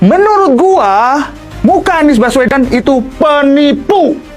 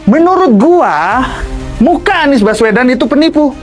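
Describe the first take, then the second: First: It is said in a put-on, pious-sounding intonation. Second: It is said with a plain, ordinary intonation. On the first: The speaker calls it right. "Nah ini benar ya, menggunakan muka yang alim" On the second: The speaker calls it wrong. "intonasinya nggak seperti itu ya"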